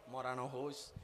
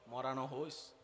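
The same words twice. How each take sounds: The two takes are said the same way.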